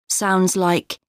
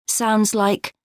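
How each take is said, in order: The two takes are said the same way.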